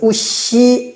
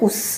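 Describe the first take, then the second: First: The word ends with a short vowel sound. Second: The word ends without any vowel sound. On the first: The speaker calls it wrong. "우시 안 하고" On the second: The speaker calls it right. "무성시아바 발음을 안 해주시면 돼요"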